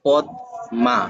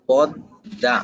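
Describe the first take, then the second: First: পদ মা split into two syllables, pad then ma; letter-by-letter reading. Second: পদ্মা said as podda, with a doubled d and no m; correct spoken form. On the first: Teacher showing the spelled-out reading, পদ মা with a clear m. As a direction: sound out পদ মা as written, with a clear m. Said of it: "তাহলে উচ্চারণ হওয়ার কথা ছিল". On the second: Teacher giving the right form, পদ্মা as podda. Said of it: "তাহলে উচ্চারণটা কি হবে?". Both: Shown as a demonstration.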